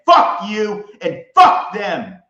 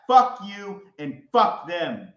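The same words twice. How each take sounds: First: Loud, slow, higher furious yell; full-volume defiance; furious shout. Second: Said in the usual way. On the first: Real, not acted. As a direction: bellow it slowly word by word. Cursing, then repeated quieter.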